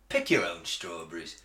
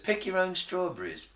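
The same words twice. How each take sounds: First: It sounds like a curt, bossy order. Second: It sounds like a friendly, inviting offer.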